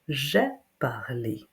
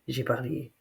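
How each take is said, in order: First: J'ai is fully and carefully pronounced. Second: J'ai is reduced and said quickly. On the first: "like I had to pronounce it when I was a child at school" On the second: "When we speak fast, the first j'ai is often just j'ai"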